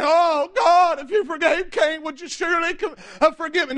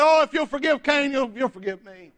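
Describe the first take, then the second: First: Plea for mercy. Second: Presumptuous demand. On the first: Preacher showing what Lamech didn't say, mock pleading. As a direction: act out begging God for mercy. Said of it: "He wasn't crying for mercy". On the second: Preacher as Lamech to God, presuming on forgiveness. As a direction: take forgiveness for granted, sinking at the end. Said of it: "This was Lamech's attitude about it". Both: Acted.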